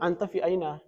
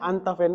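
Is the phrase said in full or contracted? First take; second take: full; contracted. First: Every word is said separately and in full. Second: The last two words merge into one syllable. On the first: This is the full underlying form. "Sebenarnya itu" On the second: This is the everyday Saudi form.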